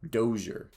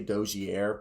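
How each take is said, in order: First: The name is given a Canadian-style pronunciation. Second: The name is given a French-style pronunciation. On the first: The speaker calls it right. "I believe they said it was the Canadian Dozier" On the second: The speaker calls it wrong. "I used to say Dozier, but that was supposedly the French way"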